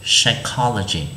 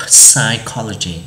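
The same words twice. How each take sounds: First: "psychology" begun straight on the S, no P; silent P. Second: "psychology" with an audible P puffed before the S; P pronounced. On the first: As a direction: say "psychology" slowly as sai-KOL-o-gy. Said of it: "nó là âm câm mà nên chúng ta sẽ đọc là". (đọc "psychology" chậm, âm P câm) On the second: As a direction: wrongly sound the first letter of "psychology", p-sai, slowly. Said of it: "chứ chúng ta không đọc là". (đọc "psychology" bật cả âm P ở đầu, chậm) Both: Shown as a demonstration.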